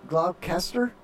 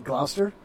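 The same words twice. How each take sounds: First: "Gloucester" said GLAW-kester, as if sounded out; spelled-out mispronunciation. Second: Said in the usual way. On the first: Shown as a demonstration. Host unsure of the town's name, "Gloucester" said GLAW-kester. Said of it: "That's how you say it?". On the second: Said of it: "I think it's Gl".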